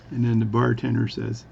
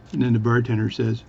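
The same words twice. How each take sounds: The two takes are said the same way.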